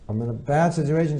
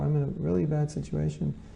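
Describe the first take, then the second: First: It sounds curt and demanding. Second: It sounds soft and pleading.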